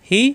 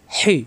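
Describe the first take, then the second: First: Easy glottal h in "হি"; light ha. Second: "হি" with a tight, strong h; pressed throat ha. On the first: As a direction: breathe "হি" without squeezing. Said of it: "এটা গোল হা". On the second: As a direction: constrict the throat on "হি". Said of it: "এটা লম্বা হা". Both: Shown as a demonstration.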